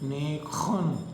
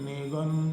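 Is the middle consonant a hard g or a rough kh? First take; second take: rough kh; hard g. First: The middle consonant is a rough throaty kh. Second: The middle consonant is a hard g stop. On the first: The speaker calls it right. "जी को प्रोनाउंस कर ऐसे करते हैं, ख" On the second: The speaker calls it wrong. "अगर हिंदी के स्टूडेंट हैं या इंग्लिश के हैं, क्या बोलेंगे?"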